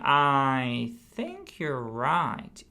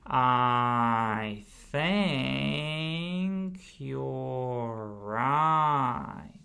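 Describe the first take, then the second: First: It is said at a normal conversational speed. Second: It is said very slowly, one sound at a time. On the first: "gradually we increase the pace pretty much to regular pace" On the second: "first we start really slow with one sound with the thumb"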